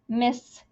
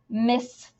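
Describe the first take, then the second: First: The final s sound is pronounced twice. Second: The final s sound is pronounced twice.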